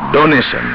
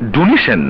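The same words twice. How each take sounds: First: The word is pronounced in the standard English way. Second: The word is pronounced in a colloquial, nonstandard way. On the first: The speaker calls it right. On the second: The speaker calls it wrong.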